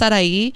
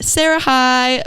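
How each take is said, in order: First: The name sounds like one short blended word. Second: The name sounds like two words, Sarah and High. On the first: "It's actually pronounced Sarai" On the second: "my Instagram is at Sarah High"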